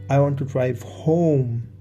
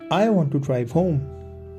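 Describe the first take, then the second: First: The word "home" is stressed. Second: No word is given special stress. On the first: Home is the destination rather than elsewhere. "Home is where I want to go" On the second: A plain statement of wanting to go home. "this is a neutral speech"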